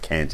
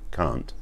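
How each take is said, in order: First: Can't is said in an American accent. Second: Can't is said in a non-American accent.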